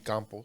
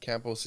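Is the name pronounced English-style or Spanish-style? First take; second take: Spanish; English. First: The name is said with Spanish vowels. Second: The name is said with English vowels. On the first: "just in Spanish it would be campos" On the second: "campos is how you pronounce it in English"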